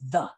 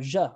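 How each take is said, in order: First: The word starts with a th sound. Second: The word starts with a j sound. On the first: The speaker calls it right. "it's really important to say the" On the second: The speaker calls it wrong. "or je or something like that"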